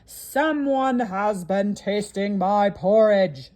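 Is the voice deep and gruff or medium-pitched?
deep gruff. The voice is deep and gruff. A large, gruff character is speaking. "said the Papa Bear in his great gruff voice"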